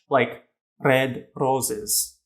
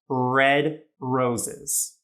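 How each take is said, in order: First: The r is a Spanish or Italian style r. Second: The r is a quick North American er sound. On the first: The speaker calls it wrong. "the type of R from their language, ... in Spanish or Italian" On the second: The speaker calls it right. "an awesome North American English sounding r"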